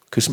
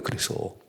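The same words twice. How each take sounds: First: Said in the usual way. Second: 그래서 repeated as a soft whisper; whispered echo. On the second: Shown as a demonstration. To the congregation, a whispered 그래서 echo. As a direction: whisper the word 그래서 back, breathy and unvoiced. Pastor echoes his word.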